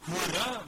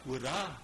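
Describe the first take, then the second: First: Second hurra lifted and louder, "hurra" called out with a rising cheer. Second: Said in the usual way. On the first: Shown as a demonstration. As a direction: call "hurra" out again, louder and brighter.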